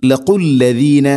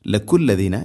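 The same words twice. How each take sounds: First: "ലഖുല്ലദീന" slow, louder, q from the uvula; correct deep qaf. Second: "ലഖുല്ലദീന" spoken plainly with a front k; mistaken k sound. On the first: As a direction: chant "ലഖുല്ലദീന" with a heavy back-of-throat q. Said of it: "ചെറുനാക്കിൻ്റെ ആ ഭാഗമാണ് ഖാഫ്". ("ലഖുല്ലദീന" ഖാഫ് ചെറുനാക്കിൽ നിന്ന് ഓതുക) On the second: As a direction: demonstrate the error, la-kulladina for "ലഖുല്ലദീന". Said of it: "എന്ന് ആവരുത്". ("ലഖുല്ലദീന" ക ശബ്ദത്തിൽ തെറ്റായി കാണിക്കുക) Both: Shown as a demonstration.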